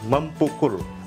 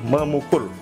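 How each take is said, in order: First: A p sound is kept after mem. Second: The p sound is dropped after mem. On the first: The speaker calls it wrong. "bukan mempukul" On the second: The speaker calls it right. "itu akan menjadi memukul"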